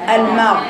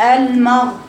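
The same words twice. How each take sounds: First: The m sound is light and thin. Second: The m sound is heavy and thick. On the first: The speaker calls it right. "ما تقوليش مغ مغ" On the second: The speaker calls it wrong. "لو بتقولي المغ مغ بقت الميم مفخمه خطا"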